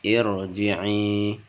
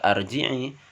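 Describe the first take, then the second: First: The word begins with an i vowel. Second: The word begins with an a vowel. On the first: The speaker calls it right. "cara membaca dengan irji'i" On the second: The speaker calls it wrong. "bukan dibaca arji'i"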